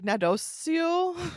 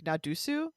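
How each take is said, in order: First: The word ends with a 'see-oh' sound. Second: The word ends with a 'soo' sound. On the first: This is the old French pronunciation. "in old timey French, it's like Nadosio or something" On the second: This is the modern Parisian French pronunciation. "in like modern Parisian French, ... it would be pronounced like Nadusu"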